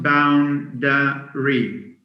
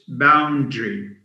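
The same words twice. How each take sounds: First: A vowel is heard between d and r. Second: No vowel is heard between d and r. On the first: The speaker calls it wrong. "So it's not boundary" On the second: The speaker calls it right. "because the A is silent"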